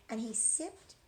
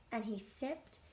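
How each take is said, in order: Both takes have the same delivery.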